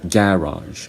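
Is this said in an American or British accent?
British. It is said in a British accent. "British would either say"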